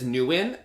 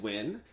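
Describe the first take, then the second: First: The name is said as two syllables. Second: The name is said as one syllable. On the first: The speaker calls it wrong. "he says Newin" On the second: The speaker calls it right. "I have knew that it was Win"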